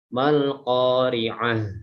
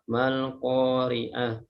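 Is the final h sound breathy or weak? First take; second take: breathy; weak. First: The final h has plenty of breath. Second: The final h has too little breath. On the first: The speaker calls it right. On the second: The speaker calls it wrong.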